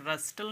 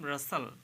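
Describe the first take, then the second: First: The t sound is pronounced. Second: The t sound is silent. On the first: The speaker calls it wrong. "इसको रस्टल नहीं कहेंगे" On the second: The speaker calls it right. "इसे कहेंगे हम रसल"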